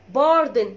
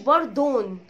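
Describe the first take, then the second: First: The second vowel is reduced and weak. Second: The second vowel is a full 'o' sound. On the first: The speaker calls it right. "اسمها باردن" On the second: The speaker calls it wrong. "ما اسمهاش باردون"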